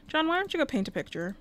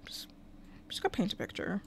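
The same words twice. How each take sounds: First: Said in the usual way. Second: "just go paint a picture" in an unvoiced whisper, much softer; softly whispering to her game character. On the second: Real, not acted. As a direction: whisper the order to the Sim. Telling Sim what to do.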